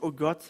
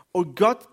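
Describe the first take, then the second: First: Said in the usual way. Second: Loud, rising cry of O Gott; a preacher's loud plea to God. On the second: A narrator's reading. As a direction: throw O Gott upward like a desperate call. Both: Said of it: "Da rief Simson den Herrn an".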